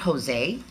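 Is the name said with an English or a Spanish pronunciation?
English. It is said with an English pronunciation. The speaker calls it wrong. "My name is not"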